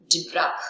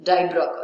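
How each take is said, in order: First: "dibroch" with short i, like "DIB-rak"; first pronunciation. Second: "dibroch" with long i, like "DIE-brock"; first syllable of "dibroch" rhymes with "eye"; alternative pronunciation. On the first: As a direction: say "dibroch" as "dih-brak". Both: Shown as a demonstration. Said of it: "otherwise you can call it".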